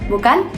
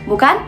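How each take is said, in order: The two takes are said the same way.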